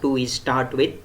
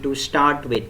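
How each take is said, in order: First: An extra e vowel comes before start. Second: Start begins directly with the s sound. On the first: The speaker calls it wrong. "vowel E is used in the beginning" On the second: The speaker calls it right. "so it should be to start with"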